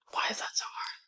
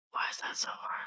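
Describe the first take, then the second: First: Breathy whispered lament, barely voiced. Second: Even fainter whisper, almost gone; softer whisper. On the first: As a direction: whisper it to yourself, defeated. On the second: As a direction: let it fade into a whisper. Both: Real, not acted.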